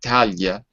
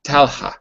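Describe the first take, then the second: First: The L and H merge into one soft sound. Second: An H sound follows the L clearly. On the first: This is how the name would be read in Portugal. The speaker calls it wrong. "Because I live in Portugal, and that would be Talia" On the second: This is how the name is said in Turkey. The speaker calls it right. "it ha like that H sound?"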